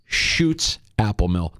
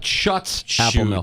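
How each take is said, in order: First: The first word sounds like 'shoots'. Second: The first word does not sound like 'shoots'. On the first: The speaker calls it right. "Shoots is how you pronounce the name" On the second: The speaker calls it wrong.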